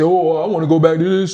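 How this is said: It is said in a male voice.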